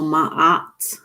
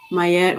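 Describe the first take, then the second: First: Ma'at said slowly as "mah-AHT"; pronounced Ma'at. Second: Mayet said "my-ET", ending in an "et" sound; slow, careful Mayet with a y glide; pronounced Mayet. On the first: Offering the other pronunciation, careful "mah-AHT" for Ma'at. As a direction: open "ah" in both halves of Ma'at, no y glide. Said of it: "I always see it spelled Ma'at". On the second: Weighing up pronunciations for viewers, careful "my-ET" for Mayet. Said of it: "I guess people pronounce it Mayet". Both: Shown as a demonstration.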